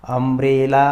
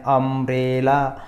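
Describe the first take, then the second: First: Said in the usual way. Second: अम्ब्रेला drawn out slowly from the opening "um"; slow teaching take of अम्ब्रेला, opening on "a"; pronunciation demo. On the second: Shown as a demonstration. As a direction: sound out अम्ब्रेला slowly for learners. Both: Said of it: "इसका उच्चारण हम कैसे कर रहे हैं".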